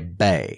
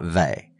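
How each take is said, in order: First: The syllable starts with a B sound. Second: The syllable starts with a V sound. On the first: The speaker calls it right. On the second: The speaker calls it wrong. "not Vay"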